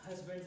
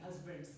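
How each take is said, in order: First: Husbands said as usbands, no h sound at the start; accented husbands, h-less; dropped h. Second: Husbands with a clear h breathed at the start; self-correcting Husbands, h pronounced; corrected h. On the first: Real, not acted. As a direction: let the h fall away in husbands. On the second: Shown as a demonstration. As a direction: repeat Husbands carefully, sounding the h. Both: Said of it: "I'm sorry, my accent".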